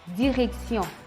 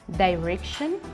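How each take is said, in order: First: It is pronounced the French way. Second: It is pronounced the English way. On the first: "en français" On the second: "en anglais"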